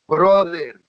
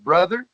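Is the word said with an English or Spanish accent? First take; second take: Spanish; English. First: It is said with a Spanish accent. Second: It is said with a plain English accent.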